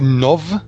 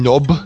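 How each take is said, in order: First: The name ends with a soft v sound. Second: The name ends with a hard b sound. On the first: This is how it is said today. "we call it Nov in the modern accent" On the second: This may be how it was said long ago. "It might have been Nob"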